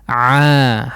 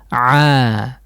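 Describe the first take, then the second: First: The throat is loose and the sound is soft. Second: The same.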